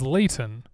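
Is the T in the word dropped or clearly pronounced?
pronounced. The T is clearly pronounced.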